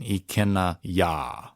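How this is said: A hard break separates the two words. The speaker calls it wrong. "You don't want to have that hard space in there"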